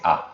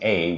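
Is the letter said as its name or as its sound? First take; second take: sound; name. First: The letter is said as its sound. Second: The letter is said as its name. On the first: The speaker calls it right. "we say A" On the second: The speaker calls it wrong. "Instead of saying A"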